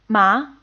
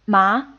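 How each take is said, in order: First: The pitch rises upward through the syllable. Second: The same.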